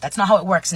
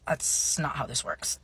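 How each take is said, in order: First: Loud, raised-pitch correction; insistent rebuttal. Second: Quiet rebuttal. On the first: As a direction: push back louder and higher. Acted rebuttal, now louder. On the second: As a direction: say it quietly after clearing the throat. Deadpan first reply to grandparents. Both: Retold or imitated.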